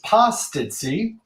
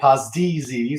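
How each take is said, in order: First: The double z is pronounced as an s sound. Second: The double z is pronounced as a z sound. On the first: The speaker calls it right. "When you have two Z's together in the Maltese language, it makes the S sound" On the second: The speaker calls it wrong. "every American, once they see the word, they all immediately say"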